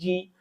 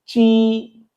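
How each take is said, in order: First: The word starts with a 'j' sound. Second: The word starts with a 'ch' sound. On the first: The speaker calls it wrong. "आप इसको पढ़ेंगे जी" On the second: The speaker calls it right. "चे का साउंड ची"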